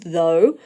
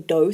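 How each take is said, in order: First: The word starts with a voiced th sound. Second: The word starts with a hard d sound. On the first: The speaker calls it right. "putting your tongue between your teeth and getting that kind of vibration th sound going" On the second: The speaker calls it wrong. "a sort of a D sound at the start, like a do sound"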